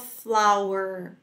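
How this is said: The word ends with a curled R sound. "O americano fala flower para as duas palavras"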